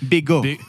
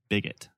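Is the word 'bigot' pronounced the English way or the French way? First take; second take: French; English. First: It is pronounced the French way. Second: It is pronounced the usual English way.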